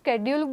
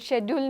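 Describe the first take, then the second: First: It is said with an American pronunciation. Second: It is said with a British pronunciation. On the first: "હું American એક્સેન્ટમાં વાત કરીશ" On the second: "British received pronunciation ... એમાં તો શેડ્યુલ જ લખેલું આવે છે"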